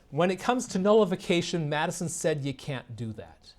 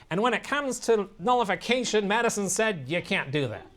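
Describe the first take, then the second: First: Said in the usual way. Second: Higher-pitched grating whine, easing at the end; nasally, whiny impression. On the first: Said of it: "And that's all he says". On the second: Lecturer mocking a radio host's claim, nasal whine. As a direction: mimic a whiny, nasal talk-show host. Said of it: "nasally, whiny voice, it's kind of grating".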